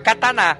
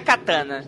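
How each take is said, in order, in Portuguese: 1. Todas as sílabas são quase igualmente fortes. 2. Uma sílaba é mais forte que as outras. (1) "todas as sílabas são fortes. Fica kataná" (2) "não é katana"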